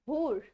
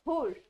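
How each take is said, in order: No difference in how they are said.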